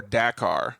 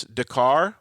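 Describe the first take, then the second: First: "Dakar" as DACK-ar; flat a and stress up front in "Dakar"; second pronunciation option. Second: "Dakar" as duh-KAR; first pronunciation option. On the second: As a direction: stress the end of "Dakar", weak first vowel. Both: Shown as a demonstration. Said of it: "tell us if it's Dakar".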